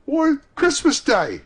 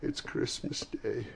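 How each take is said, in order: First: Put-on high, loud, slower boyish answer; boy's voice. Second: Soft, slow, hushed realisation; to himself. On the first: Boy telling Scrooge the day, astonished. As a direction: call back as an astonished lad. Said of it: "replied the boy". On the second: Scrooge to himself on learning the day, hushed. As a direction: murmur it privately, taking it in. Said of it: "said Scrooge to himself". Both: A narrator's reading.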